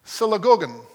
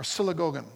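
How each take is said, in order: First: "synagogon" said as sih-luh-GO-gon, stressed on GO; Greek word. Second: "synagogon" again, softer, sih-luh-GO-guh; alternate pronunciation. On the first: Pastor teaching the congregation a Koine Greek word, careful pronunciation. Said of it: "in Koine Greek is a word". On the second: Pastor giving the congregation a second Greek pronunciation, softer. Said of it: "or synagogon". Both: Shown as a demonstration.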